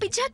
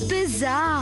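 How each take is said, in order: First: The middle sound is a 'ch' sound. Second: The middle sound is a 'z' sound. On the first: The speaker calls it wrong. "పిచ్చా కాదు" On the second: The speaker calls it right.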